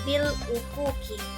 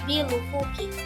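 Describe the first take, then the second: First: A clear glottal stop is heard before 'ufuki'. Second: The 'l' runs straight into 'ufuki' without a stop. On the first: "Hafaz membacanya dengan hamzah yang jelas" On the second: "sehingga hamzah tidak terdengar. Bacaan menjadi lebih ringan"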